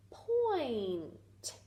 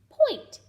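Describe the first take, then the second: First: Slow stretched-out point; stretched blend. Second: Said in the usual way. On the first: Shown as a demonstration. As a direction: draw the sounds together slowly. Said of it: "P, oi, n, t".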